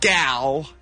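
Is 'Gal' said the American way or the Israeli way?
American. The name is said with an American vowel. The speaker calls it wrong. "it's not Gal"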